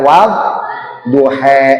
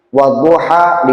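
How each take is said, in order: First: The final vowel is shifted toward an 'e' sound. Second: The final vowel is an open 'a' sound. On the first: This is a variant reading from another transmission. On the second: This is the usual reading most listeners know.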